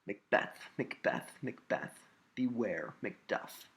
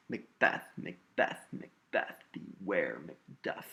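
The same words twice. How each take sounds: First: Said in the usual way. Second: "Macbeth" punched on BETH, "beware Macduff" on WARE and DUFF; weak-STRONG beats: MacBETH, beWARE MacDUFF, drawn out at the end; stressed iambic pattern. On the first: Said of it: "Let's look at a line from Macbeth". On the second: Shown as a demonstration. Teacher shows the syllable pattern, stressing BETH, WARE and DUFF. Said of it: "It's a pattern, not only in the words, but in the syllables".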